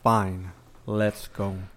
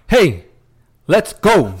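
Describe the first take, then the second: First: It sounds reluctant and unenthusiastic. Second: It sounds excited and eager.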